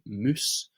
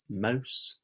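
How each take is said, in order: First: The vowel is an 'oo' sound. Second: The vowel is an 'ow' sound. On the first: "they say moose" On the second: "they won't say mouse"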